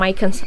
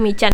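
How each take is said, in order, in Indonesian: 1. Namanya diucapkan dengan lafal ala Inggris. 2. Namanya diucapkan dengan lafal lokal Indonesia. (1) "kalau misalnya kita bilang mycans" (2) "Jadi bilang aja michan"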